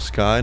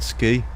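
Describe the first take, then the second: First: The last syllable rhymes with 'high'. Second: The last syllable rhymes with 'free'. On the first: The speaker calls it right. "It's Captain Virtual Sky" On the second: The speaker calls it wrong. "not Ski"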